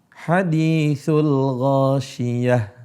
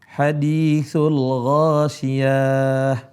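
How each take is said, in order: First: The vowel on ya is kept short. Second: The vowel on ya is drawn out long. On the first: The speaker calls it right. "di situ tidak ada mad" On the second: The speaker calls it wrong. "membaca panjang di huruf ya"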